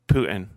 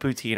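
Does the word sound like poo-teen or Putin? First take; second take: Putin; poo-teen. First: The word sounds like the name Putin. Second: The word sounds like poo-teen, ending in teen. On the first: The speaker calls it right. "It's actually pronounced like Putin" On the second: The speaker calls it wrong. "I know it's wrong"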